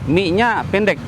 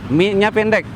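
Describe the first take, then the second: No difference in how they are said.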